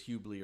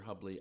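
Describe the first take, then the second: First: "Hubley" said the other way, with a different first vowel; alternative name pronunciation. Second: Said in the usual way. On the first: Shown as a demonstration. Host checking a listener's surname, alternative pronunciation of "Hubley". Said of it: "you told us once the weather was Hubley or Hubley". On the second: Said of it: "I'm pretty sure it's Hubley".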